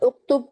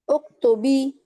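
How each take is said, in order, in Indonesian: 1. Kata ini diakhiri dengan konsonan b mati. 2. Kata ini diakhiri dengan vokal i. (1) "bukan uktub"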